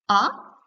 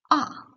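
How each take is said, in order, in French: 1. Le ton commence bas et monte. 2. Le ton chute brusquement de haut en bas. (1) "Votre voix part du bas et monte" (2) "un ton bref et fort qui tombe du haut vers le bas"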